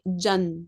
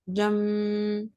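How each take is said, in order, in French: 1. La syllabe se termine par un son n simple. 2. La syllabe se termine par un son m nasalisé. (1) "Je vais pas prononcer Jan. Non, non" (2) "J'inverse le noun par le mime. Ensuite, je dois faire nasal avec mon nez"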